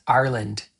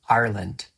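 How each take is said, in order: No difference in how they are said.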